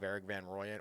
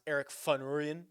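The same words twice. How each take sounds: First: The name is said with American-style pronunciation. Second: The name is said with South African pronunciation. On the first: The speaker calls it wrong. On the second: The speaker calls it right.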